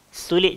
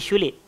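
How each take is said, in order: First: The word begins with a plain 's' sound. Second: The word begins with an 'sh' sound.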